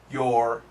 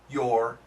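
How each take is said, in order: The two takes are said the same way.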